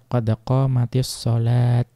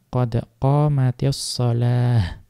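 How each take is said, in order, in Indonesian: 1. Kata terakhir berakhir dengan bunyi t. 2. Kata terakhir berakhir dengan bunyi h. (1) "boleh tetap tetap ta, ya dibaca qad qamatis sholat" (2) "Maka diganti dengan ha"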